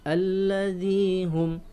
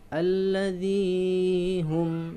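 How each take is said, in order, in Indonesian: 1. Vokal panjang itu ditahan satu ketukan. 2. Vokal panjang itu ditarik terlalu panjang. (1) "Ini satu ayunan" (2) "terlalu panjang"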